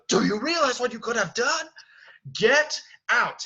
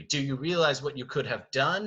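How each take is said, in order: First: High, loud angry shout; acted furious outburst. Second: Said in the usual way. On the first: Beast grabs Belle by the arm, loud furious shout. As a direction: explode at her, ending on a hard command. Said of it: "he's going to grab her by the arm". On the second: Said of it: "when he says that line".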